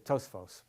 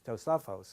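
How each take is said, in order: First: The word has two syllables, dropping a vowel. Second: The word has three syllables, keeping the vowel. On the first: The speaker calls it wrong. "People always say Tosfos" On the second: The speaker calls it right. "but it's always Tosafos"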